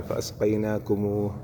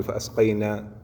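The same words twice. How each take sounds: First: "فأسقيناكموه" said whole and slow to the end; full word stop. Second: "فأسقينا" broken off before the rest of the word; wrong cut stop. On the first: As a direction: read "فأسقيناكموه" through to the final h. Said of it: "أن نقف بالكامل". (قراءة الكلمة كاملة "فأسقيناكموه" عند الوقف) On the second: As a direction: stop short at "فأسقينا" as the mistake. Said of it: "ما نقف نقول". (وقف خاطئ عند "فأسقينا") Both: Shown as a demonstration.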